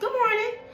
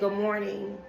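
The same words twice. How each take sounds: First: It is said loudly, with a projected voice. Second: It is said at a normal, quiet volume.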